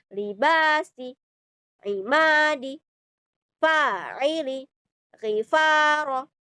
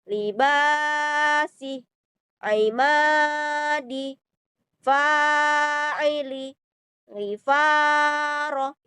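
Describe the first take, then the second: First: The words flow straight on without holding. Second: The sounds are held before moving on. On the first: The speaker calls it right. "ini kita tidak boleh ditahan, teman-teman. Jadi langsung" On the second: The speaker calls it wrong. "Itu adalah bacaan yang yang salah. Jadi posisinya bacaan yang salah itu ditahan dulu"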